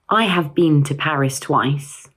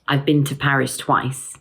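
First: Have is said fully and separately. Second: Have is reduced to a V sound. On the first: The speaker calls it wrong. "sounds a little unnatural" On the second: The speaker calls it right. "the have is contracted to a simple V sound"

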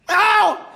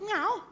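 First: The meow is extremely loud and piercing. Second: The meow is at a normal, moderate volume. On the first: A deaf cat that cannot hear its own volume. "das mit den Phon und Dezibel, das hatte die nicht mehr so raus. Das klang anders" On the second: An ordinary cat asking to be understood. "Eine normale Katze miaut ja ganz normal"

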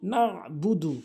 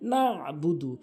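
No difference in how they are said.

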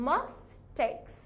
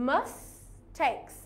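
Both takes have the same delivery.

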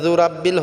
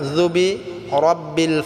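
First: The syllable before 'rabbil' is dropped. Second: The syllable before 'rabbil' is clearly said. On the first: The speaker calls it wrong. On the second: The speaker calls it right.

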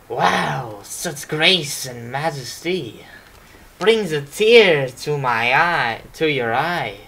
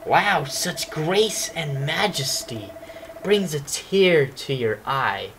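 First: It is said with a French accent. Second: It is said in a plain accent.

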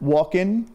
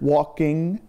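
First: The ending has a casual, non-standard pronunciation. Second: The ending has the standard pronunciation. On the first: "the not as standard walk-in that everybody says" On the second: "the broad English standard walking"

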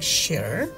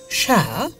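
First: The final r sound is clearly pronounced. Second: The final r sound is not pronounced. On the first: "American ne kintu share er moddhe r uchchon hocche like share" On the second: "British uchchon jodi hoy share"

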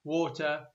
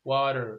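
First: It is said in a British accent. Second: It is said in an American accent. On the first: "البريطانيين يقولون water" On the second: "والأمريكان يقولون water"

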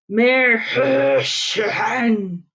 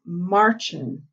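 First: A throaty hawking sound comes between the syllables. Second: It sounds like marchin', with no throat sound. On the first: The speaker calls it right. "make a sound in your throat like you're hawking a loogie" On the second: The speaker calls it wrong. "like what the ants go doing if you're from Texas. And that's not right"

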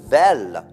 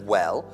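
First: The word begins with a V sound. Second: The word begins with a W sound. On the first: The speaker calls it wrong. "invece di w dicono v" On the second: The speaker calls it right. "instead of well"

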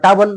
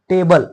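First: The first vowel is a long ah sound. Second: The first vowel is an ay sound. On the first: The speaker calls it wrong. "किंवा टाबल नाही" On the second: The speaker calls it right. "तर हे टेबल"

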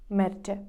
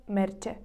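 Both takes have the same delivery.

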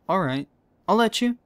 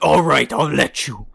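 First: It is said in a plain, unvoiced way. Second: It is said in a put-on dragon voice.

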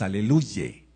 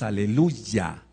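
First: The word ends with a 'ye' sound. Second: The word ends with a 'ya' sound. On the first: The speaker calls it wrong. "no decimos aleluye" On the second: The speaker calls it right. "De hecho decimos aleluya"

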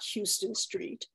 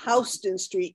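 First: Houston begins with a sound like 'hue'. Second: Houston begins with a sound like 'house'. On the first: The speaker calls it wrong. "not Houston Street" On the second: The speaker calls it right. "it's Houston Street"

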